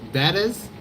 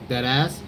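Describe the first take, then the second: First: The name ends with a sound like 'is'. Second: The name ends with a sound like 'ass'. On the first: Most people read the name this way. "the way people say it is like" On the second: The owner reads the name this way. "the way I say it is like"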